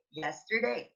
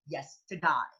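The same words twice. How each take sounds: First: "yesterday" ending in a clear AY; long AY at the end of yesterday; usual pronunciation. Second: "yes to die", yesterday ending in EYE; Australian EYE vowel ending "yes to die"; Australian pronunciation. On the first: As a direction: say yesterday as "yes-ter-DAY". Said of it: "We Filipinos love to say". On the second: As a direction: say yesterday Aussie-style, as "yes-tuh-die". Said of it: "but in Australia, that is". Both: Shown as a demonstration.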